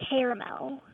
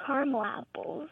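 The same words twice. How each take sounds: First: Caramel as CARE-uh-mel; three-syllable pronunciation. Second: "caramel apples" as CAR-mul apples; two-syllable pronunciation. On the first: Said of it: "when I'm talking about other things". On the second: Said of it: "I eat caramel apples". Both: Shown as a demonstration.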